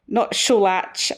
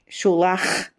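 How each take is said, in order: First: Scholach with a hard tch ending; wrong pronunciation. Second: Scholach ending in a throaty ch as in loch; right Scottish pronunciation. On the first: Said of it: "Not Scholach and not Scholak". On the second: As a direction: say Scholach with the ch rasped at the back of the throat. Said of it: "bug stuck in the back of your throat". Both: Shown as a demonstration.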